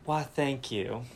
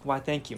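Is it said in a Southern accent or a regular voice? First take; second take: Southern accent; regular voice. First: It is said in a Southern accent. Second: It is said in a regular accent.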